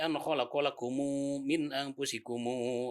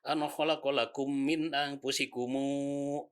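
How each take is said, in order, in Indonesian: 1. Lakum diucapkan dengan vokal u tambahan. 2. Lakum berakhir dengan bunyi m tertutup. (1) "kalau Qalun membacanya" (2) "Tapi kalau Warsh enggak"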